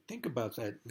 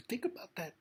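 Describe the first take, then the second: First: Said in the usual way. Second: Much higher, pleading repeat; high insistent repeat. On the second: Real, not acted. Speaking to Trump, urging him to reflect, high and urgent. Repeats line, pitch jumps.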